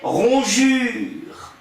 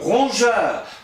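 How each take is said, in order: First: The last vowel sounds like French 'u'. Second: The last vowel sounds like French 'eu'. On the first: This is how the word was said in the past. "à l'époque, on disait ronjure" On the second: This is how the word is said today. "conserve son E malgré sa prononciation"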